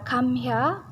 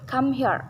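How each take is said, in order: First: It is said in a British accent. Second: It is said in an American accent. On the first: "Jika di British dia come here" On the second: "maka di Amerika come here"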